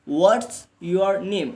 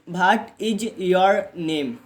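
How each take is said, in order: First: 'What is' is contracted and runs into one word. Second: Each word is said separately, with 'is' in full. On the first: This is how native speakers say it. The speaker calls it right. "Native speaker ... वो बोलते हैं व्हाट्स your name" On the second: This is how most Indian speakers and beginners say it. The speaker calls it wrong. "India में most of the people कैसे बोलते हैं इसको ... like this"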